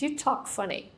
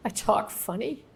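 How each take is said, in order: First: Higher, softer remark from a waitress; lightly voiced waitress. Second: Questioning echo with a rising end; mock disbelief. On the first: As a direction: lightly imitate a waitress pointing out oddness. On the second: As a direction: throw it back as a puzzled question. Teller's baffled comeback to the waitress.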